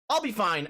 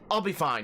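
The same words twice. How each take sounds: First: It is said in a high voice. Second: It is said in a normal voice.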